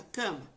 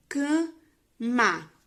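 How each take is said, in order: First: Said in the usual way. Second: "cama" in two slow, loud beats; split into syllables. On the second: Shown as a demonstration. Teacher showing how syllables form a word, "cama" slow and split. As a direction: sound out "cama" slowly, syllable by syllable. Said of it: "Quando eu junto, forma".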